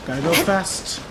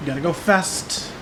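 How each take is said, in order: Both takes have the same delivery.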